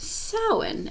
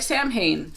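First: The word is said with its traditional pronunciation. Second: The word is read the way English spelling suggests. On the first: The speaker calls it right. "It's actually pronounced Samhain" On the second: The speaker calls it wrong. "It looks like Samhain as English, like English speakers"

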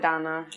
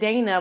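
First: The name is said like Donna. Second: The name is said like Dana. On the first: "they pronounce it Donna" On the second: "it's called Dana"

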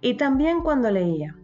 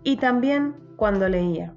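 First: It is read slowly. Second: It is read even more slowly. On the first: "las vamos a leer muy despacio" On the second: "Vamos más despacio"

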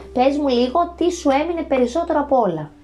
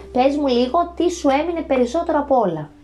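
No difference in how they are said.

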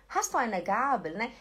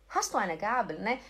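No difference in how they are said.

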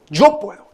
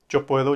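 First: It is said louder, with strong emotion. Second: It is said flatly, without raised voice. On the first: The speaker calls it right. "que subas tu tono de voz y que utilices tu cuerpo de una mejor manera y que literalmente le metas toda la emoción del mundo" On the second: The speaker calls it wrong. "Eso no te va a servir absolutamente de nada"

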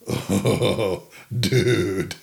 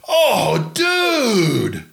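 First: The voice sounds worried and dismayed. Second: The voice sounds thrilled and excited. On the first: Something bad has happened. "your way in trouble" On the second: Something great has happened. "There is your way excited"

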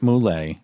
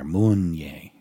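First: The name is said without an n sound. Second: The name is said with an n sound. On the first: This is how the speaker's family says it. "We pronounce it Moulet" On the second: This is how the speaker's grandmother said it. "she put an N in there"

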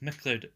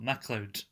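First: The first syllable is a short reduced 'muh'. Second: The first syllable is a full 'mack'. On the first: The name is spelled with MC. "I said MacLeod" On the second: The name is spelled with MAC. "If it was MAC, I'd say Scott MacLeod"

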